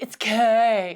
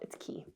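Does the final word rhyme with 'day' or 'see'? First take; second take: day; see. First: The word is said like the letter K. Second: The word is said like 'key', rhyming with 'see'. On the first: The speaker calls it wrong. "They're like, it's K" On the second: The speaker calls it right. "No, my sweet summer child, it's Key"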